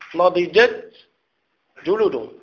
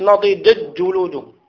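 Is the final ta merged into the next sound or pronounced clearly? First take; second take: clear; merged. First: The ta is pronounced clearly before the jim. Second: The ta merges into the following jim. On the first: The speaker calls it right. "لا تدغم التاء في الجيم" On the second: The speaker calls it wrong. "ما تقوليش"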